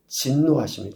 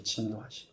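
First: Said in the usual way. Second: Soft whispered echo of 진노하심; quiet echo for weight; hushed repeat. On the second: Shown as a demonstration. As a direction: drop to a near whisper on 진노하심. Preacher repeats key word.

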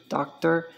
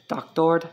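First: Said in the usual way. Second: Spanish "doctor" with a full OR ending; Spanish pronunciation. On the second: Shown as a demonstration. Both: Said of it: "doctor means doctor".

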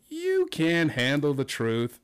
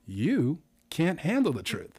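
First: Slow, drawn-out, odd-sounding reply; slow spin. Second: Slow, drawn-out delivery, stretching handle; slow spin. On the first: Host showing a new spin on the line, slow and drawn out. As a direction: stretch every word out slowly. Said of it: "but delivered differently". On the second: Host's second game example, slow and drawn out. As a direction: drag the words out slowly. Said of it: "another one just as an example". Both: Shown as a demonstration.

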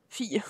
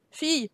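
First: Whispered, much softer. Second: Said in the usual way. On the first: Shown as a demonstration. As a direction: breathe the word Fille, no voice. (Fille chuchoté, sans voix) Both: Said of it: "Euh, oui, fille".

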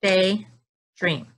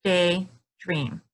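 First: Daydream split into two even beats; clapped syllables. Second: Daydream spoken in two careful beats; chin check syllables. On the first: Teacher clapping with kids, two even beats. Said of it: "Let's clap daydream". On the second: Teacher checking beats with her chin, careful syllables. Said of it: "Let's check with our chin". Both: Shown as a demonstration.

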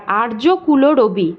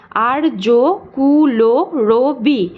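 First: Said in the usual way. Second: "আর্য কুল রবি" very slowly as আর্-যো-কু-লো-রো-বি; six long, separated beats on "আর্য কুল রবি"; split into syllables. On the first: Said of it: "এখানে একটা রুদ্ধ দল রয়েছে". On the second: Shown as a demonstration. Teacher showing open and closed syllables, "আর্য কুল রবি" syllable by syllable. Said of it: "একটা রুদ্ধ দল রয়েছে আর বাকি পাঁচটা".

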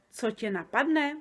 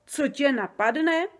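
First: Said in the usual way. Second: Higher, louder, slow, proudly repeating; proud echo. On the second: A narrator's reading. Giant proudly echoing his own phrase back to Sofie, higher and slow. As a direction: savour the words with pride. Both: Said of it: "opakoval Oberdobr pyšně".

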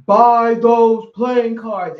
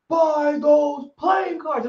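First: Slow, loud, commanding spirit voice; booming male voice. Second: Booming voice. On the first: Spirit voice in the store, slow and booming. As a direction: boom it out like an unseen voice giving orders. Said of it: "I heard this big booming male voice". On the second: Spirit commands her again, slow shouted boom. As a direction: call it out like a voice from nowhere. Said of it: "I hear this big booming voice like". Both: Retold or imitated.

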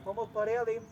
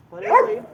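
First: Said in the usual way. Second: High, loud, singsong request for the money; playful high ask. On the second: Real, not acted. Seller asking the dog for payment, high playful. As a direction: chirp it out to tease the buyer.

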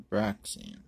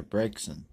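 First: Braixen with a short "a", as "BRAK-sen"; mispronounced Braixen. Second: Braixen with a long "a", as "BRAYK-sen"; corrected Braixen. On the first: Card opener misreading a name, mispronounced Braixen. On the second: Card opener fixing a misread name, corrected Braixen. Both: Real, not acted.

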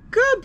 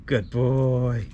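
First: Put-on much higher, louder happy good boy; thrilled high-pitched dog praise; excited praise. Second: Said in the usual way. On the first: Shown as a demonstration. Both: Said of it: "my voice goes a little bit more excited".

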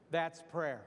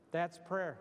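The two takes are said the same way.

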